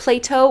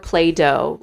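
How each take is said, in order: First: The middle consonant is a crisp T sound. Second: The middle consonant is a soft D sound. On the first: "Plato with a T" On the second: "I definitely pronounce it Play-Doh"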